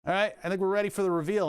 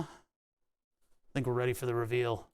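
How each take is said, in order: First: Said in the usual way. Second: Slow, softer, lower announcement; dramatic reveal voice. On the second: Pretend. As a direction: build suspense in a hush.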